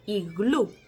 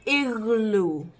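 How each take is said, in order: First: "Iglú" stressed on the final ú, Spanish style; acento en última sílaba. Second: "iglú" English style, stressed on the first syllable, both vowels drawn out; English pronunciation. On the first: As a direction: land the stress on the last syllable of "Iglú". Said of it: "ponemos el acento en la última sílaba". ("Iglú" con acento en la ú final) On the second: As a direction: say "iglú" as English igloo, leaning on the start. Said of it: "Pero en inglés es". ("iglú" a la inglesa, acento en la primera sílaba) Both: Shown as a demonstration.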